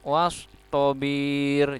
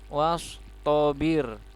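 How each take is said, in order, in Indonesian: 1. Vokal terakhirnya dibaca panjang. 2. Vokal terakhirnya dibaca pendek. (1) "Jangan sampai dibaca wastobir" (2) "Birnya dibaca pendek"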